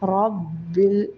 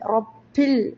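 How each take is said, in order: First: The b is voiced with no puff of air. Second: The b is puffed with air like a p. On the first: The speaker calls it right. "ശബ്ദ കൊടുത്തുകൊണ്ട്" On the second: The speaker calls it wrong. "ബാഇന് കാറ്റൊക്കെ വന്നിട്ട് ഒരു പാ പോലെ"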